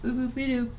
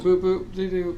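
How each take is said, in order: First: Higher chirpy robot voice; robot beeps. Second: Higher chirpy beep-boop voice; robot beeps. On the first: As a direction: beep it like a cute robot. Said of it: "that kind of thing". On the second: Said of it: "You didn't do this, though". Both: Acted.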